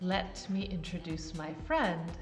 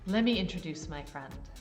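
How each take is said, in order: First: 'Let me' is said as two clear words. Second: 'Let me' is run together quickly.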